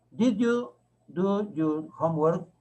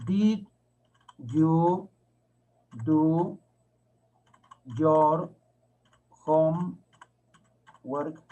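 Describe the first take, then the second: First: Slow but joined-up question; measured teacher's model question; slow read-back. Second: Very slow, isolated words; one word at a time with long gaps; drawn-out teacher dictation of a question. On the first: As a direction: read the whole question slowly, rising at the end. Teacher reads back the written question. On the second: Teacher dictates question while writing it. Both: Shown as a demonstration.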